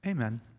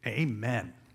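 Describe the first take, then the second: First: It is said flatly, like a closing formality. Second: It is said with strong, emphatic feeling. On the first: The prayer is simply over. The speaker calls it wrong. "as if it's the end" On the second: The speaker affirms and believes what was prayed. The speaker calls it right. "It should be amen"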